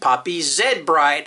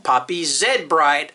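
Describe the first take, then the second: First: The letter Z is said as zed. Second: The letter Z is said as zed.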